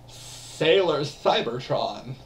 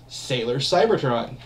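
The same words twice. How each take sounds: First: It is said in a put-on cartoon voice. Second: It is said in the speaker's normal voice.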